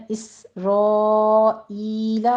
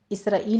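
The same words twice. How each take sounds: First: اسرائیل recited slowly with the long vowels drawn out; correct pronunciation. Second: اسرائیل said the everyday Urdu way; wrong pronunciation. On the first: Teacher modelling the word for students, slow drawn-out. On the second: Teacher showing students the mistake, casual اسرائیل. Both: Shown as a demonstration. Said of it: "اسرائیل نہیں کہنا".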